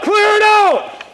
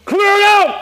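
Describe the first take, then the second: First: High, slow, drawn-out call; slow command shout. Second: Command shout. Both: Real, not acted. Repeated in-game command.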